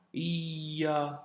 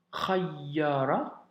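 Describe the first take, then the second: First: Khayyara in slow separate pieces, kha, iyya, ra; broken down, doubled consonant. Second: Said in the usual way. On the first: Shown as a demonstration. Teacher explaining the shedda, khayyara piece by piece with held y. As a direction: split khayyara and hold the doubled y. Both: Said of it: "tu dois doubler la consonne".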